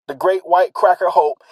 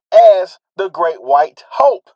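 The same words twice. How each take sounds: First: Said in the usual way. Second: White said louder and slowly; stress on white. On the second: Shown as a demonstration. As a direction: lean hard on the word white. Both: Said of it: "Emphasize the word white".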